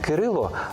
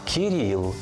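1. В імені є голосні 'y', і закінчується воно на 'o'. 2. В імені є голосні 'i', і закінчується воно на 'l'. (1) "Не Кирило" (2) "згідно з російською вимовою"

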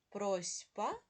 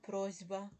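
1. Приголосний перед б — глухий s. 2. Приголосний перед б — дзвінкий z. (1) "Пишемо просьба" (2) "але вимовляємо просьба"

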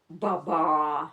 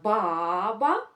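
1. Наголос на другому складі. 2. Наголос на першому складі.

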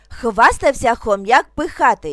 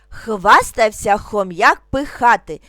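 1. Вимовляється трохи швидше. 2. Вимовляється спокійно, повільним темпом. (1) "трошки швидше" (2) "спокійно, не спіша"

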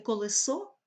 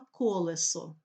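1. Наголос за російським зразком. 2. Наголос за українським зразком. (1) "Не" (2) "а"

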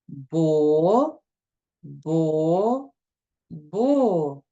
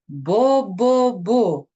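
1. Склади читаються повільно, з паузами між ними. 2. Склади читаються швидко, без пауз між ними. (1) "прочитаємо склади повільно, як повзе черепаха" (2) "А тепер швидко прочитаємо"

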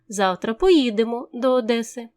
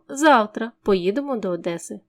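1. Наголос падає на слово поїдемо. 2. Наголос падає на слово завтра. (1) "у який спосіб завтра дістанемося до Одеси" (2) "Відповідаючи на питання «коли поїдемо до Одеси?»"

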